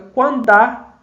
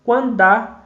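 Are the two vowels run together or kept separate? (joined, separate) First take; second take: joined; joined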